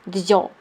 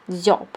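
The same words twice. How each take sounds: No difference in how they are said.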